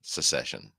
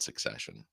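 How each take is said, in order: First: Secession said with se-SESS-ion, se- like set; corrected to secession. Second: Succession said as suc-SESS-ion, with the suc- of success; wrong word succession. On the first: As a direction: correct it to secession, se- not suc-. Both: Real, not acted. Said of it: "not succession".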